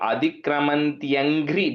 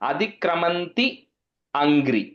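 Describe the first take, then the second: First: The two words merge, with a ya sound. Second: The two words are said apart, without merging. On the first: The speaker calls it right. "adikramantyangri bhirahritam is the right way to say it" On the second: The speaker calls it wrong. "the actual word is adikramanti angri are the two words"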